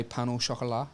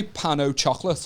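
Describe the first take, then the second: First: Pan au chocolat with French sounds, silent t, soft sh; French pronunciation of pan au chocolat; French flair. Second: Pan au chocolate in plain English sounds; English pronunciation of pan au chocolate; anglicised. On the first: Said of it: "I'll say". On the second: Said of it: "I won't say". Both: Shown as a demonstration.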